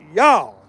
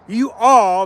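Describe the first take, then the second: First: A 'y' sound joined straight onto 'all'. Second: Two separate words, 'you' then 'all'. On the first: The speaker calls it right. "You just say a Y and then all" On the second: The speaker calls it wrong. "You don't just go you all. That's that's improper talk there"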